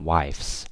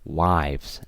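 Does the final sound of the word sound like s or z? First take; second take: s; z. First: The word ends with an s sound. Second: The word ends with a z sound. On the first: The speaker calls it wrong. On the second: The speaker calls it right.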